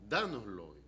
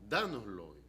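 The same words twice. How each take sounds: First: It is said firmly, as a command. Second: The same.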